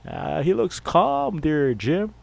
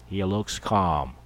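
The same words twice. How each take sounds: First: High, slow TV commentator drawl; announcer to his partner Jim, high and slow; sportscaster voice. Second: Said in the usual way. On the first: Pretend. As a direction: call it like a booth announcer talking to Jim. Sportscaster commenting on Tom Landry.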